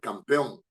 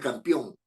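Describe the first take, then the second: First: The stress falls on the last syllable. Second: The stress falls before the last syllable. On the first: The speaker calls it right. "sino es campeón" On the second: The speaker calls it wrong. "porque no es campeón"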